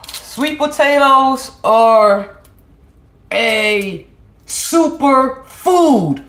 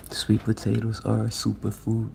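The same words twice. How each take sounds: First: High, loud, very slow proclaiming; grand announcer. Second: Said in the usual way. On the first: Acted. Proclaiming to her viewers, grand and drawn out. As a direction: stretch it out like a big announcement.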